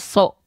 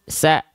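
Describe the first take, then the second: First: The vowel is a thick, rounded o. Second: The vowel is a thin, open a. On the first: The speaker calls it wrong. "dia kan nggak dibaca so ketika berharokat fathah" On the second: The speaker calls it right. "dia dibaca dengan vokal a yaitu sa"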